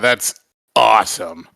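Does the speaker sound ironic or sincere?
ironic. It is said with an ironic, sarcastic edge. The speaker means the opposite. "ironic edge in my voice"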